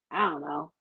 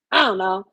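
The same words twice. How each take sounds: First: Said in the usual way. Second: I don't know, pushed harder; emphatic repeat; louder repeat. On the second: Real, not acted. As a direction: lean on it the second time.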